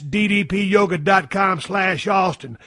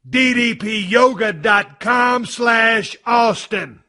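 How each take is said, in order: First: It is said plainly, without extra energy. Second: It is said with extra energy and feeling.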